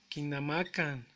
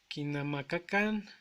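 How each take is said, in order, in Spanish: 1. El segundo sonido k se suaviza hasta desaparecer. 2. El segundo sonido k se pronuncia completo.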